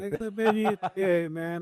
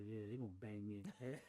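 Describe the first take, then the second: First: Higher, laughing through the line. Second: Quiet muttered dread. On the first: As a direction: laugh at your own bad luck. Retelling fear of denial, laughing. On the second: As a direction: mutter it to yourself, resigned. Walking out of parole hearing. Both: Retold or imitated.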